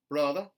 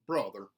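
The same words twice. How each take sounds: First: The R sound is dropped. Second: The R sound is hard and strong. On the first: "a general Southern dropped R" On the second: "mountain, where the R sounds are retained, but they are hardened"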